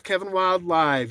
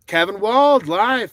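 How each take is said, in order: First: Said in the usual way. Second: Kevin Wild live, the word Wild drawn out slow and loud; name read out loud and slow. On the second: Shown as a demonstration. Streamer reads a viewer's name aloud, slow and loud. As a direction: call out Kevin Wild live slowly and loudly, stressing Wild.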